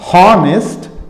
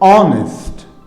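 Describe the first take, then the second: First: The word begins with an h sound. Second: The word begins with a vowel sound. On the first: The speaker calls it wrong. "This is not honest" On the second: The speaker calls it right. "this is honest"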